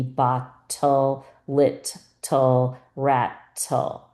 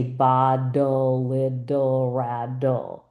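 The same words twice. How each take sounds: First: "ba-tul-lit-tul-rat-tul" with each T crisp, very slow and syllable by syllable; crisp T sounds. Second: "ba-dul-idul-radul" with every T softened to a D, slow; flapped T as D. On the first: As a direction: spell it out with clear T's, slowly. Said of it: "it's supposed to be". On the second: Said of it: "I happen to say in my dialect, my T's as D's". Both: Shown as a demonstration.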